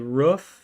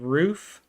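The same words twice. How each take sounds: First: It is said with a regional New England pronunciation. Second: It is said with the ordinary standard pronunciation. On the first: This is how a relative from New Hampshire said it. "she would say roof" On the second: This is the usual way people say it. "instead of roof"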